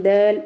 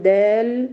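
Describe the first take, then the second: First: دال clipped short with the voice cut off; دال said wrongly, too quickly; rushed dal. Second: دال with the letter given its full time; دال said slowly, giving the letter its full sound; held dal. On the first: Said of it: "لا أقول دال". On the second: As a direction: do not rush the l in دال. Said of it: "لا أسرع عليها". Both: Shown as a demonstration.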